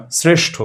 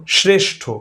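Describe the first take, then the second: First: শ্রেষ্ঠ as "sreshtho", hissing s first; s before r. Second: শ্রেষ্ঠ as "shreshtho"; wrong sh before r. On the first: Teacher gives a second cluster example, শ্রেষ্ঠ with dental s. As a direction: start শ্রেষ্ঠ with a clear s, not sh. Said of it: "তখন কিন্তু স". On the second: Teacher shows what we don't say, শ্রেষ্ঠ with sh. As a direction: open শ্রেষ্ঠ with sh instead of s. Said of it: "এভাবে বলি না". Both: Shown as a demonstration.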